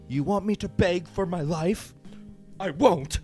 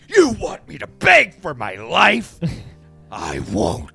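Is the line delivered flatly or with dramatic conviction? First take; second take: flatly; dramatic conviction. First: It is read flatly, like the actress. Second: It is read with more dramatic conviction.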